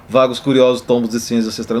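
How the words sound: It is read in an attempted European Portuguese accent.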